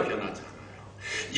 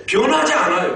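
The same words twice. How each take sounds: First: Slow, near-whispered echo; hushed repeat. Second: High, raised preaching emphasis; emphatic preaching. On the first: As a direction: drop to a slow whisper to let it sink in. Repeats the point under breath. (속삭이듯 낮추어 천천히 되뇌며) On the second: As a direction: press it home with raised pitch. Emphatic statement, then repeated hushed. (높여 강조하는 설교조) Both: Real, not acted.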